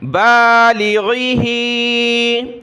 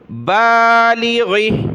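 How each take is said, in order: First: The word ends in a drawn-out 'ee' vowel. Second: The word ends on a stopped consonant. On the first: The reading continues without stopping. "नीचे खींचेंगे" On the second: The reader stops on this word. "वक्फन"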